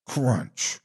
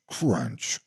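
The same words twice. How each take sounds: The two takes are said the same way.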